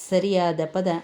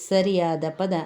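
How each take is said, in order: Both takes have the same delivery.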